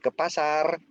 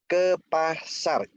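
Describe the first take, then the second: First: The pitch stays level at the end. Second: The pitch falls at the end. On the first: It confirms that going to the market is required. "itu memberitahu, mengkonfirmasikan" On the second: It is a command to go to the market. "intonasinya turun"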